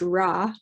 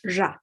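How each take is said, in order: First: The first consonant is a smooth English r. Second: The first consonant has audible friction, near j. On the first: "not quite like we say in English" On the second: "there's a bit more friction in there somehow"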